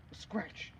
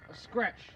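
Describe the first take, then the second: First: Breathless whisper, fading strength. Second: Said in the usual way. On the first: Acted. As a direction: whisper it as if wounded. Wounded Mercutio repeats himself.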